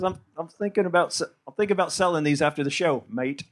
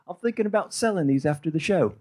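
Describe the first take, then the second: First: Attempted Australian accent. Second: Said in the usual way. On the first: Comic quoting his friend's merch plan, badly faked Aussie accent. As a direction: fake an Australian accent, tacking on "mate". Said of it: "That sold the accent". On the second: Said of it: "I'm not gonna do the accent anymore".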